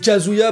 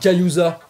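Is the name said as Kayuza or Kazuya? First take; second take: Kazuya; Kayuza. First: The name is said in its usual order, Kazuya. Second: The name is said with the syllables swapped, Kayuza. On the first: The speaker calls it right. "C'est Kazuya" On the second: The speaker calls it wrong. "les mecs ils arrivent à se gourer"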